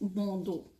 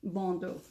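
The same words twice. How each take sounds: First: It is said with a French pronunciation. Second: It is said with an English pronunciation. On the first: "as the French might say it" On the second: "I'll say bandeau because it's easier to say it that way"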